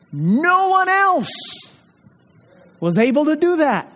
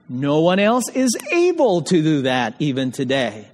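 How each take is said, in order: First: Emphatic preaching cry. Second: Said in the usual way. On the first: Real, not acted. Preacher to his congregation on the resurrection, soaring emphatic cry.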